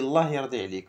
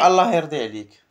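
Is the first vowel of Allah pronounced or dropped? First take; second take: dropped; pronounced. First: The first vowel of Allah is dropped. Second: Allah is said in full with its first vowel. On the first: "On a enlevé le A de Allah" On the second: "tu peux dire"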